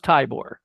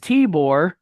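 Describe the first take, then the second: First: The first vowel sounds like 'eye'. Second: The first vowel sounds like 'ee'. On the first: The speaker calls it wrong. "I thought it was Tybor" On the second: The speaker calls it right. "the I sounds like an E"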